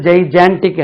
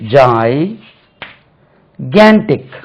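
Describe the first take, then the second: First: The second consonant is a soft j sound. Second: The second consonant is a hard g sound. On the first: The speaker calls it wrong. "நாங்க படிக்கும்போது ஜெய்ஜான்டிக் என்று சொல்லி கொடுத்தாங்க" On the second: The speaker calls it right. "இது actually இது பாருங்க"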